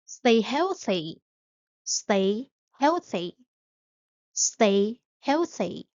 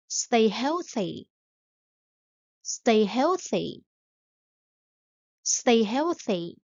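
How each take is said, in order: Both takes have the same delivery.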